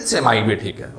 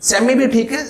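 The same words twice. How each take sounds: First: सेमाई said as "se-mai", falling and settled; semai pronunciation. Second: सेमी said as short "semi", rising at the end; semi pronunciation. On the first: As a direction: say सेमाई as "semai", the other accepted form, closing down. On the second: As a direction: say सेमी as "semi", lifted, like one allowed option. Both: Shown as a demonstration. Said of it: "सेमी भी ठीक है, सेमाई भी ठीक है".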